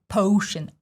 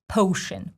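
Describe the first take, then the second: First: The first vowel is a full O diphthong. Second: The first vowel is a full O diphthong.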